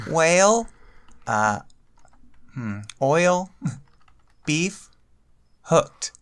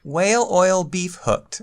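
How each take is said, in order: First: Word by word. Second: Whale oil beef hooked run together, laughing; said fast. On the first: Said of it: "type it out word by word". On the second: Told to say it fast, runs the words together laughing. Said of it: "Now say it fast". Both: Shown as a demonstration.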